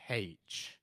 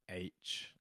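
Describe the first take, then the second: First: It starts with an h sound. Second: It starts with a vowel sound. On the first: "Not H with a sound" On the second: "I would say H, like the rapper"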